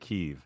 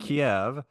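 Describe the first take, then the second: First: It is said the Ukrainian way, as Kyiv. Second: It is said the Russian way, as Kiev. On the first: "Ukrainians say" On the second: "Russians say"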